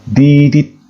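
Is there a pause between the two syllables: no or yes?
no. The two syllables are joined in one breath. It stands for one single letter. "dilafazkan sekali napas dan tidak boleh terputus"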